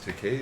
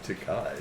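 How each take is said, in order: First: The last syllable rhymes with gay. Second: The last syllable rhymes with guy. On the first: The speaker calls it right. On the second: The speaker calls it wrong. "not Takai as in guy"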